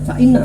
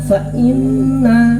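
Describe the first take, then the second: First: The n sound is short. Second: The n sound is held long. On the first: The speaker calls it wrong. "enggak boleh fa inna, salah mesti salah" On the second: The speaker calls it right. "Ditahan, dihentikan dua harakat. Kudu ngoten caranya"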